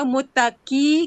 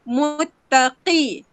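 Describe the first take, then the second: First: The consonant is light, like a plain k. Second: The consonant is deep and thick in the throat. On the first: The speaker calls it wrong. "kamu baca ki je, itu bunyi kaf. Salah tu" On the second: The speaker calls it right. "tebalkan bunyi qaf tu"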